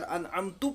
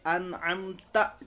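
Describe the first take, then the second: First: The word ends with a tu sound. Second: The word ends with a ta sound. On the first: The speaker calls it wrong. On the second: The speaker calls it right.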